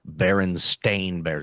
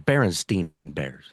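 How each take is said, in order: First: The last name ends with a 'stain' sound. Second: The last name ends with a 'stine' sound. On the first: This is the spelling that actually exists. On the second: This is how the speaker remembers it.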